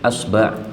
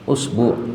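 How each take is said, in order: First: Both syllables use the vowel a. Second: Both syllables use the vowel u. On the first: "fathah pada hamzah dan fathah pada ba" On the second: "dhammah pada hamzah dan dhammah pada ba"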